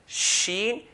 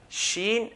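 No difference in how they are said.

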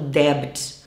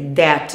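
First: The B is pronounced. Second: The B is silent. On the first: The speaker calls it wrong. "não debt" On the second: The speaker calls it right. "É debt"

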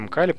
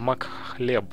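First: The name starts 'Mk' with a plain k sound. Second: The name starts 'Mak' with a 'kh' sound. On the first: The speaker calls it wrong. "Неправильно я его произношу" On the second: The speaker calls it right. "на самом деле"

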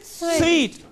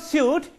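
First: The word sounds like 'sweet', with a w-glide. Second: The word sounds like 'suit', without a w-glide. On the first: The speaker calls it right. "it is sweet, as in S-W-E-E-T" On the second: The speaker calls it wrong. "But it is not suit"

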